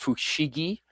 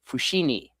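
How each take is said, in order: First: The middle consonant is a G sound. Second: The middle consonant is an N sound. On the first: This is the standard Japanese form. "with a G" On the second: This is the Aomori dialect form. "in Aomori they say it with an N"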